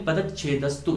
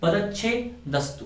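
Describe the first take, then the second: First: It is said as one unbroken word. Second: A break comes before the final "dastu". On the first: "या तो हम इसे बोले पदच्छेदस्तु" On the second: "उचित नहीं है"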